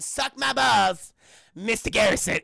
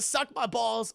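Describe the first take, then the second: First: Loud, slow "Suck my balls", a beat, then "Mister Garrison"; pause before "Mister Garrison". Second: Said in the usual way. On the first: Shown as a demonstration. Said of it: "it's the pause in between". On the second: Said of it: "It's not even the".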